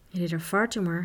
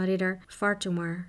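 First: A touch of reverence on the name; awed. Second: Said in the usual way. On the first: A narrator's reading. Piak repeats the famous knight's name, full of awe. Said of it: "herhaalde Piak vol ontzag".

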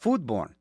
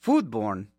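First: Foodborne said as one flat word with a plain falling end; flat repeat. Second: Foodborne said low and slowly, as one odd word; puzzled reading. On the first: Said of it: "And it's one word". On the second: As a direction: sound out Foodborne as if it looks wrong. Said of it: "that's such a strange word". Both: Shown as a demonstration.

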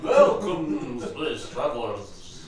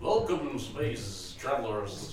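First: Slow, stretched hissing S's; hissing snake voice. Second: Dracula voice. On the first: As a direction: hiss every S like a snake. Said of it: "when you do a snake and they do all the S's". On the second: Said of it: "He sounds like fucking Dracula". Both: Acted.

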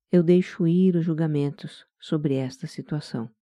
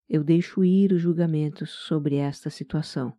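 The two takes are said the same way.

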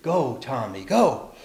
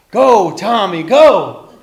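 First: Restrained first cheer; understated storybook cheer. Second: Higher, much louder chant; full-voiced rallying cheer. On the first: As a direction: start the chant gently, lifting on the last go. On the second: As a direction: belt it out to urge a friend on. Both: A narrator's reading. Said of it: "And they cheered".

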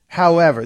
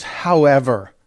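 First: Said in the usual way. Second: A light put-on Scottish however; lightly imitating a Scottish accent; mock Scottish. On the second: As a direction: say However with a slight Scottish lilt. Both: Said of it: "Listen to how he says".

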